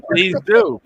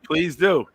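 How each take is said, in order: First: Mock eager invite. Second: Said in the usual way. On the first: Real, not acted.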